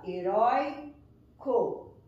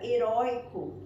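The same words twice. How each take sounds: First: "heróico" slowly split, RÓI held before CO; stretched "heróico", weight on RÓI; stress on penultimate syllable. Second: Said in the usual way. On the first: Shown as a demonstration. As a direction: sound out "heróico" with a pause before CO. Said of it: "na penúltima sílaba". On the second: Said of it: "a sílaba mais forte".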